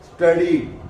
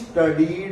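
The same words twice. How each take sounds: First: The S is half-said, blending straight into T. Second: The S is said as its own syllable. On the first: The speaker calls it right. "एस को आधा उच्चारण करना है" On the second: The speaker calls it wrong. "इसको स्टडीड नहीं बोलेंगे"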